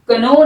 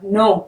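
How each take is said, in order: First: The word starts with a k sound. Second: The word starts with an n sound. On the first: The speaker calls it wrong. "कनो नहीं होगा" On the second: The speaker calls it right. "के silent"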